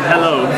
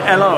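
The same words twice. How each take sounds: First: The word starts with an H sound. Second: The word starts without an H sound. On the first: The speaker calls it right. "instead of hello" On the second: The speaker calls it wrong. "So you would say hello"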